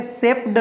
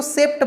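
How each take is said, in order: First: "सेप्ड" with voiced final D; ending read as D. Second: "सेप्ट" with a final T sound; ending read as T. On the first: Teacher shows the rejected reading, "सेप्ड" ending in D. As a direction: end "सेप्ड" on D instead of T. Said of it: "सेप्ड नहीं बोलते हैं". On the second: Teacher gives learners the accepted reading, "सेप्ट" ending in T. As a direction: end "सेप्ट" on T, never voiced. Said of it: "इसीलिए इसको सेप्ट बोलते हैं". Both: Shown as a demonstration.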